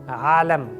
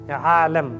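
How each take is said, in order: The two takes are said the same way.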